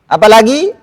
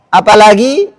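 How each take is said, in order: Both takes have the same delivery.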